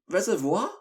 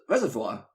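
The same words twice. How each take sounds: First: The word is said with a French-sounding pronunciation. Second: The word is said in a plain English way. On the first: "You sounded French then" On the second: "I've always said"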